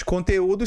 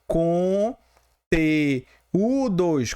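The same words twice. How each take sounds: First: Said in the usual way. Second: "com T, o dois" as separate held syllables with pauses. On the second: Shown as a demonstration. Teacher splitting the word to show the hiatus, syllable by syllable. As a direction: break "com T, o dois" into slow, distinct pieces. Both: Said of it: "conteúdos aqui realmente".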